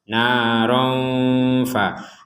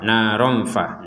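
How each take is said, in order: First: The nasal sound is held for about two beats. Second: The nasal sound passes quickly with no hold. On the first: The speaker calls it right. "tetap harus ada jeda" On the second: The speaker calls it wrong. "Kalau tidak ada jeda dua harokat"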